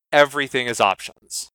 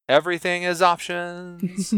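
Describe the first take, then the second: First: Said in the usual way. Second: Higher, pressing hard on "is"; stress on is. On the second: Shown as a demonstration. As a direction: lean into "is" with mock weight.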